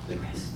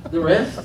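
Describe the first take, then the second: First: Barely audible, very soft reply; hushed answer. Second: Rising, disbelieving mock query; incredulous question. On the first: Retold or imitated. Preacher reenacting the answer about the rest, hushed. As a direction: drop to almost nothing, no question. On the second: Preacher asking God about giving the rest, mock disbelief. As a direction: question it as if you misheard. Balking at giving remaining money.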